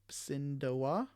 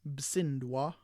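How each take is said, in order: First: The short vowels are kept in full. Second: The short vowels are dropped between consonants. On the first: Some dialects say it this way. "This is how some dialects might say it" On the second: This is the consonant cluster version. "we get rid of that short vowel sound A and bring it all together"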